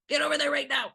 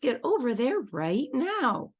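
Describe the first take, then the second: First: The voice sounds harsh and commanding. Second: The voice sounds gentle and friendly. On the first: "we're jumping on the red circle or the red stripe" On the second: "maybe get to a green tone of voice"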